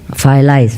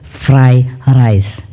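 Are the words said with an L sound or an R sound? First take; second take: L sound; R sound. First: The r sounds are said like l sounds. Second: The r sounds are said as clear r sounds. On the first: The speaker cannot pronounce the r sound. The speaker calls it wrong. "pronounce R. You know, many of them, some of them can" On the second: The speaker has learned to pronounce the r sound. The speaker calls it right. "learned very hard to pronounce fried rice. Okay, so he got it"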